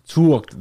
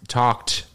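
First: "talked" with a U glide, "too-awked"; imitated accent. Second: Said in the usual way. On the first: Grandson describing grandparents' shared accent, "talked" with U. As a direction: mimic "talked" with the U sound. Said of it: "the same way". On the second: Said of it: "You both kind of".

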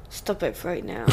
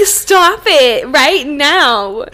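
First: Low, hushed retold order; much quieter and lower, held back; quiet warning. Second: Loud, drawn-out mock command; slow, emphatic, louder scolding; exasperated order. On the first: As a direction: say it softly under your breath, as a restrained warning. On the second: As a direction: stretch each word out in retold exasperation. Retold exasperated order about gulping.

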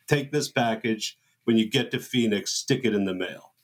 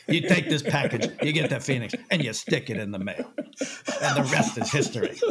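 First: Low, measured bossy orders; Robert Evans style. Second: Laughing mock producer orders; imitating Jay's Robert Evans. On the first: Retold or imitated. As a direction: hand out orders like a Hollywood producer. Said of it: "Jay says it like that". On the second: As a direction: give the instructions like a smug old mogul, half laughing. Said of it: "That's exactly how he says it".

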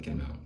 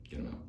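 First: Said in the usual way. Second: Hushed and breathy; whispered. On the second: Retold or imitated. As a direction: whisper it low and soft. Second take whispered.

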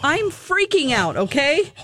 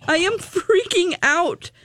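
First: High, drawn-out nervous excitement; playing up being overwhelmed, pitched up; retold freak-out. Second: "freaking" stretched out and pitched high; each word of "I am freaking out" drawn out, high on "freaking"; emphatic freak-out. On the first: Telling host about the VIP invite, freaking out. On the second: Retold or imitated. Insisting to host about the VIP invite, emphatic "freaking".

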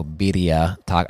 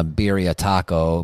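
First: "birria" with a quick tapped Spanish R; Spanish-style birria. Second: Said in the usual way. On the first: Shown as a demonstration. Host re-saying the dish name, "birria" with Spanish tapped R.

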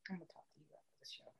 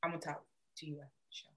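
First: Fast hushed whisper. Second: Muttered very softly and fast; muttered aside. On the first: Repeating herself to her friend as a whisper. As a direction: whisper it so the mic won't catch it. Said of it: "repeats it whispered". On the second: Telling her friend to talk after the show, in a mutter. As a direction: mumble it so only she hears. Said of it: "You what?". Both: Real, not acted.

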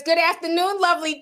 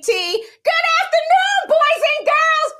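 First: Said in the usual way. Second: Much higher, slow, loud cheery teacher call; sing-song teacher greeting. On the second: Acted. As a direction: belt it like a bubbly schoolteacher. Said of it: "You tried it, [name]".

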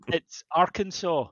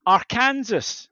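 First: Arkansas slowly as AR-kan-saw, silent final s; correcting her, ARkansaw. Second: Arkansas said slowly as AR-KAN-SAS, every letter sounded; teacher's Arkansas. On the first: Child correcting teacher, Arkansas as ARkansaw. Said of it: "and I went". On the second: Teacher sounding out Arkansas for the class, AR-KAN-SAS. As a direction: spell it out, Ar-kan-sas, with Kansas in it. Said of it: "and she went". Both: Retold or imitated.

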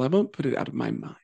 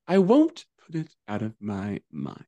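First: Said in the usual way. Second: Each word of "I won't put it out of my mind" slowed and spaced; deliberate emphasis. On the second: Real, not acted. Statement repeated slowly for emphasis.

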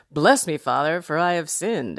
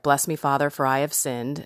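First: Stand-up comic delivering a confession; jokey, performed take on a solemn formula; like a comedian. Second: Said in the usual way. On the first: Acted. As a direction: play the confession lightly for laughs. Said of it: "Saying it like a complete comedian". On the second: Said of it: "I remember what I was supposed to say".

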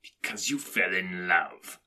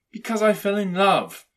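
First: Slow, scornful growled echo; growling. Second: High, loud, ardent answer; earnest nephew. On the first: Scrooge scoffs at his nephew's love, growling. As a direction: growl it back slowly, with contempt. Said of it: "growled Scrooge". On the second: Nephew explains his marriage to Scrooge, earnest. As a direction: declare it openly, pitched high. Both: A narrator's reading.

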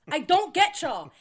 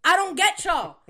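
First: High, loud, slowed-down exasperation; exasperated, slower. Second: High, loud exasperation; exasperated. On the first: Repeating it to the co-host, slower and exasperated. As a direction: drag out the disbelief. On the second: Venting to the co-host about roommates, exasperated. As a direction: throw up your hands. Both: Real, not acted. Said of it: "repeated exasperation".

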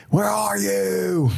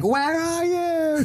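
First: Long, slow shout, pitched higher; calling out for dad. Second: Very high, slow horror movie wail; mock the scared girl calling out to the killer; Scary Movie victim. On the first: Retold or imitated. Jack lost in the jungle calls for his father: slow, high shout. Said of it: "wandering the jungle in a haze looking for Daddy". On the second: Horror movie girl calls to the killer: high, slow wail. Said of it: "she's like".

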